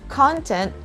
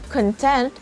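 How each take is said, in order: First: The stress is on the first syllable. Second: The stress is on the second syllable. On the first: It is the noun. "the stress is on the first syllable" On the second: It is the other word class. "the stress is on the second syllable"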